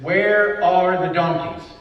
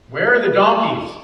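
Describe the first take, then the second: First: Slow, deliberate and a little louder; drawn out, as if the only thought in his head; Where leaned on, then a slow fall; slow musing. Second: Louder, punching the word Where; Where ringing out loud; loud exclamation. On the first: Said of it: "Saul's entire thought in this is". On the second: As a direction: call it out like a man hunting his lost animals. Preacher voicing Saul's worry. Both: Retold or imitated.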